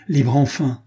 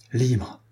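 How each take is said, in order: First: Libre enfin, with rising relief; joyful exclamation. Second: Stunned repeat. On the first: Captain exclaims at his release, louder, relieved. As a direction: burst out with the freedom. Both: A narrator's reading. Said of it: "répéta-t-il".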